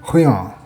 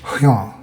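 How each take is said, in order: First: The R sounds throaty, almost like an H. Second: The same.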